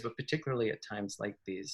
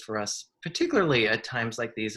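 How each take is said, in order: First: "particularly at times like these" dropped soft and quick; quick quiet aside. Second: Said in the usual way. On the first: Real, not acted. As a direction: toss it off softly, faster, like an afterthought. Repeats the phrase as an aside.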